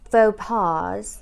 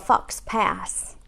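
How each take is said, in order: First: The x and s sounds are silent. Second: The x and s sounds are pronounced.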